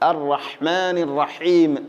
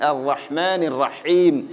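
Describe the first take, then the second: The two takes are said the same way.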